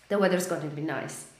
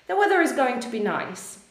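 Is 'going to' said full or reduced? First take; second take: reduced; full. First: Going to is contracted into a fluid gonna. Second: Going to is said in full, unlinked. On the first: "bardziej ściągnąć to wyrażenie razem, żeby ono było bardziej płynne" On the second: "tutaj użyliśmy is going to"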